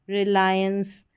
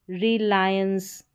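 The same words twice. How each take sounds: First: Said in the usual way. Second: Reliance slowly split as "ri-laayens"; syllable by syllable. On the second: Shown as a demonstration. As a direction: stretch out Reliance for learners. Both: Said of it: "एंस करके उच्चारण हो रहा".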